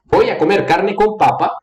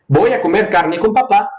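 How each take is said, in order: First: Papa with first syllable stressed, end falling. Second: Papá with its last syllable stressed; stress on final syllable. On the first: Teacher explaining the potato sentence, stress on first syllable of papa. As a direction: put the weight on the first PA of papa. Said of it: "começa uma entonação mais alta e desce". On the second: Teacher explaining the dad sentence, stress on final syllable of papá. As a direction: put the weight on the final PÁ of papá. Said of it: "começa uma entonação baixa e sube". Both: Shown as a demonstration.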